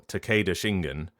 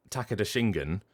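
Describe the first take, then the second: First: Takeda as tuh-KAY-duh, then Shingen; anglicised pronunciation. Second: Takeda as TACK-eh-da, then Shingen; front-stressed pronunciation. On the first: Voice actor comparing name readings, anglicised Takeda. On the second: Voice actor comparing name readings, front-stressed Takeda. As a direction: stress the first syllable of Takeda. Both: Shown as a demonstration. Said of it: "whether you're pronouncing it".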